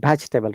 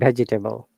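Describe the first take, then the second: First: The middle 'e' sound is dropped. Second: The middle 'e' sound is pronounced. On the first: The speaker calls it right. "you're going to pronounce it correctly" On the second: The speaker calls it wrong. "rather than"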